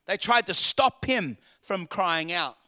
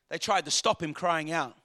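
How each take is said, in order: First: Slow, deliberate weight on "stop him"; stress on stop. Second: Said in the usual way. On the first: Real, not acted. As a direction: lean on "stop", spacing the phrase out. Repeats the line for emphasis.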